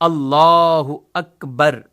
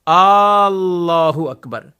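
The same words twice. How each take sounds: First: The first vowel is kept short. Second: The vowels are stretched out long. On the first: The speaker calls it right. "अल्लाह के शुरू के अलिफ पर वो फकत जबर है" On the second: The speaker calls it wrong. "इनको खींचते रहते"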